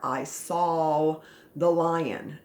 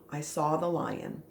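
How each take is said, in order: First: The word saw ends with an L sound. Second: The word saw ends with no L sound. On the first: The speaker calls it wrong. "we don't pronounce it Saul. We don't say" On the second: The speaker calls it right. "No, it's I saw"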